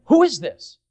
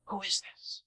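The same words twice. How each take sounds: First: Loud, high excited question; crowd asking. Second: Much softer, suspicious murmur; wary leaders ask each other softly. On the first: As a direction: call it out like an eager crowd. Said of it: "the people were saying". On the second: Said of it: "The leaders were saying". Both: Retold or imitated.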